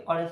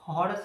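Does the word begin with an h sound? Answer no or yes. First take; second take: no; yes. First: The word begins directly with a vowel sound. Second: The word begins with an audible h sound. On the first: The speaker calls it wrong. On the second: The speaker calls it right.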